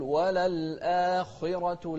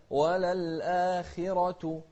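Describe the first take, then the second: First: Chanted وللآخرة with the خ too full and heavy; over-darken the خ in وللآخرة, as a mistake; wrong demo of وللآخرة, thick rounded خ, slow chant; heavy khaa. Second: Slow chanted وللآخرة with a lightened خ before the i; lighter khaa. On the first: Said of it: "لا تقول". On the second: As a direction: keep the خ in وللآخرة only slightly heavy. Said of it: "إذا كان مكسور يكون أقل تفخيما". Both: Shown as a demonstration.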